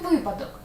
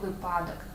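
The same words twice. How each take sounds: First: The stress falls on the first syllable. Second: The stress falls on a later syllable. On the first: The speaker calls it right. "він випадок, бо він випав" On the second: The speaker calls it wrong. "Усім дуже часто хочеться сказати «випадок», але ні"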